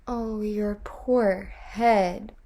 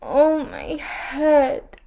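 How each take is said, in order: First: Slow, mild echoing wail; gentle wail. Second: High, slow, louder wail. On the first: Tiny creatures echoing the queen's wail in sympathy. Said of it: "wailed the tiny creatures". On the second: Ereshkigal wailing in pain on her throne. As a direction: draw out a long aching wail. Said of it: "wailed Ereshkigal". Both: A narrator's reading.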